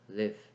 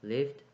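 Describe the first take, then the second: First: The word ends without a d sound. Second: The word ends with a d sound.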